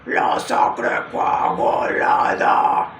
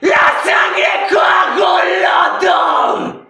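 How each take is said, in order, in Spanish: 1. Un grito no empujado desde el diafragma. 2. Un grito completo empujado desde el diafragma. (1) "si yo no lo impulsara con el diafragma, sonaría así" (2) "El scream, más o menos de ciento treinta decibelios, sonaría"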